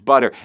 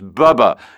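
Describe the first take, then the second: First: The middle consonant is a t sound. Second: The middle consonant is a b sound. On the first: The speaker calls it right. "no, not bubba, it's butter" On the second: The speaker calls it wrong. "you mispronouncing it at first"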